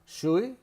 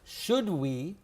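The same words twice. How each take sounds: First: The sounds are relaxed and run together. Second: Each sound is pronounced fully and carefully. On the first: "we relax our mouth" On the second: "Should we becomes"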